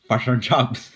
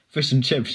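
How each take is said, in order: First: The short i vowels are flattened toward u. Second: The short i vowels sound standard.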